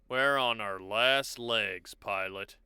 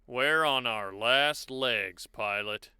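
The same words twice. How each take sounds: First: The line is delivered in a defeated tone. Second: The line is delivered in an amused tone. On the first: "number two sounds like defeated" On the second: "number three sounds kind of amused"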